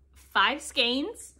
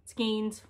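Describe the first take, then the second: First: Skeins said with a long a, like skanes. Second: Skeins said with a long e, like skeens. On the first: Vlogger counting her haul, skeins said like skanes. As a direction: say skeins to rhyme with canes. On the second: Vlogger offering the other way to say Skeins, skeens. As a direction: say Skeins to rhyme with beans. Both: Shown as a demonstration. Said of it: "however you wanna say it".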